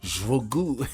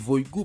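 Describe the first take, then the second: First: The name starts with an 'sh'-like sound. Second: The name starts without the 'sh' sound. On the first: "Parce que nous t'a prononcé là, nous t'a dit Jvogu" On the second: "parce que c'est H pas qu'à prononcer là"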